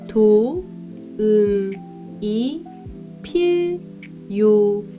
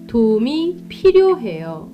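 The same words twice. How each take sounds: First: It is said slowly. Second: It is said at normal speed.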